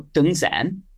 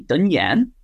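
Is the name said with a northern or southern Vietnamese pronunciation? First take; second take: northern; southern. First: The name is said in a northern Vietnamese way. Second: The name is said in a southern Vietnamese way. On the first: The speaker calls it right. "I've chosen to embrace the northern pronunciation" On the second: The speaker calls it wrong. "they'll say back to me"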